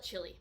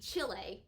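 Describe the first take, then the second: First: It sounds like the food word chili. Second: It does not sound like the food chili. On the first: "I call it chili, all right? Like the food I eat" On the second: "It very well may be Chile"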